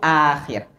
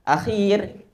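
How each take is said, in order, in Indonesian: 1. Vokal pertama pendek. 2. Vokal pertama panjang.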